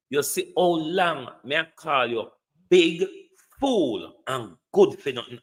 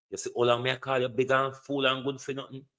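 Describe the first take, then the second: First: Scornful repeat leaning hard on "big"; stress on big. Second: Said in the usual way. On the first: Shown as a demonstration. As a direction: hit the word "big" hard, then drop back. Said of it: "repeated with BIG punched". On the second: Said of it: "repeated for emphasis".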